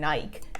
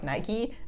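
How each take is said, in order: First: The name rhymes with like, ending on k. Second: The name ends with an ee vowel. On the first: The speaker calls it wrong. "written like the word like, and so why wouldn't it be pronounced Nike" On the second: The speaker calls it right. "people were like Nike"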